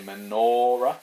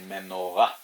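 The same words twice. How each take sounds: First: The stress falls before the last syllable. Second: The stress falls on the last syllable. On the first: The speaker calls it wrong. "so you don't say menorah" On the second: The speaker calls it right. "you say menorah at the end"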